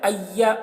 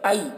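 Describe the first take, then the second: First: The y sound is doubled and hard. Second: The y sound is single and soft. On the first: The speaker calls it wrong. "सख्ती के साथ तशदीद को पढ़ा जाता है ... ऐसे नहीं पढ़ना है" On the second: The speaker calls it right. "बल्कि आई बई तई ऐसे नरमी से"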